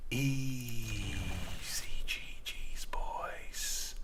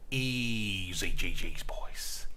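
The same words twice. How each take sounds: First: Slow breathy whispered catchphrase; secretive whispered sign-off. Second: Low, slow, quieter catchphrase; fading victory sign-off; softer sign-off. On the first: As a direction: whisper it right into the mic. Whispered repeat. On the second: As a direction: pull it back and murmur it. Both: Pretend.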